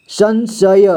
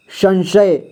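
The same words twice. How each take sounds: First: संशय drawn out as सं-श-य; syllable-by-syllable reading. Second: Said in the usual way. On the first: Shown as a demonstration. Teacher showing learners how to read, slowly split as सं-श-य. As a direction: sound out संशय slowly, letter by letter. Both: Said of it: "इसे क्या पढ़ेंगे?".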